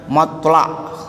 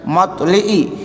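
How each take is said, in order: First: The vowel after the L is an 'a'. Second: The vowel after the L is an 'i'. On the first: This is the majority reading. "mayoritas ulama membacanya matla'" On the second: This is a minority scholar's reading. "Imam Al-Kisai membacanya dengan matli'i"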